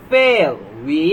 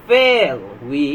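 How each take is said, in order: Both takes have the same delivery.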